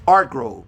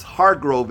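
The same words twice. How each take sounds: First: "Hargrove" with a silent H, said "Argrove"; Spanish pronunciation. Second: "Hargrove" with a clear English H; English pronunciation. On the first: Teacher shows his surname in Spanish, H left silent. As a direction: drop the H in "Hargrove". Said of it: "You don't pronounce the ha". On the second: Teacher shows his surname in English, H clearly sounded. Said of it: "Hargrove in English". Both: Shown as a demonstration.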